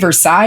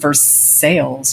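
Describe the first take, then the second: First: The name is pronounced the way outsiders say it. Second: The name is pronounced the local Kentucky way. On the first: This marks the speaker as not from the area. The speaker calls it wrong. "if you come here and say Versailles, you're probably going to get thrown into a tobacco field" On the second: This is how residents say the city's name. The speaker calls it right. "we pronounce our city's name Versailles"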